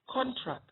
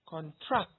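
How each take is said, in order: First: The stress is on the first syllable. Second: The stress is on the second syllable. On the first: It is used as a noun. "when you stress the first syllable, you have a noun" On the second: It is used as a verb. "you stress the second syllable, what you have is a verb"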